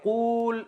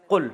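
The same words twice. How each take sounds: First: قول held on a long oo, higher; drawn-out long vowel. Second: قل cut to a short u; shortened vowel. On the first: Teacher showing Arabs' problem with a long word, قول drawn out. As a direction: stretch the oo in قول to show its length. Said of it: "اب قول اتنا لمبا ہے". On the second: Teacher showing the Arabs' shortened command, قل with a short vowel. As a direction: say قل quickly, with no long oo. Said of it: "عرب نے اس کو بنا کے دیا قل". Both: Shown as a demonstration.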